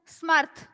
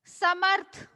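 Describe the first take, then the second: First: The s runs straight into the m. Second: A vowel follows the first s sound. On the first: The speaker calls it wrong. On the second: The speaker calls it right.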